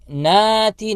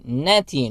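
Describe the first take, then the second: First: The vowel after n is drawn out long. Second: The vowel after n is kept short. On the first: The speaker calls it wrong. "नाति नहीं पढ़ना" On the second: The speaker calls it right. "एक हरकत की मिकदार खींचेंगे"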